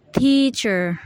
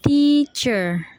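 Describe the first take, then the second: First: "teacher" with a long, strong first syllable; stress on TEA. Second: "teacher" in two long, separated syllables. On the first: Student showing primary stress, TEA punched in "teacher". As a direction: hit TEA in "teacher", let cher fall. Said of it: "the primary stress is". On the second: Student repeating the syllables of "teacher", drawn out and split. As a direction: say "teacher" as tea, pause, cher. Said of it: "the syllables are". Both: Shown as a demonstration.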